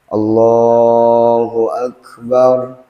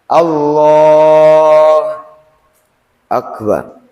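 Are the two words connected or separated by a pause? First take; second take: connected; paused. First: The two words run together without a break. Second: A break separates the two words. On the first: The speaker calls it right. "Jadi harus disambung" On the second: The speaker calls it wrong. "Gak boleh. ... Jadi gak boleh dijeda"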